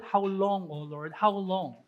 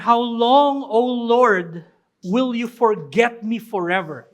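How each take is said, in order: First: Soft, much softer lament, sinking low; David's lament. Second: Loud anguished cry to God; David's cry. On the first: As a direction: murmur the plea as if worn out. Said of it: "he says, paulit-ulit". (mahinang panaghoy, halos bulong) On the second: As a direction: call out the question with force. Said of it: "Sabi niya". (malakas na daing sa Diyos) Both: Retold or imitated.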